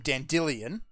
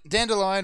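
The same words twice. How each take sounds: First: The name is said with an unusual, different pronunciation. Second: The name is said like the everyday English word.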